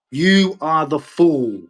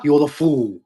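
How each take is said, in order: First: You are the fool, each word slow and weighted, YOU hit hardest; slow deliberate emphasis. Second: Said in the usual way. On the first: Real, not acted. Ranting vlogger repeats the insult to England, slow and weighted. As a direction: spell out You are the fool slowly, leaning on YOU.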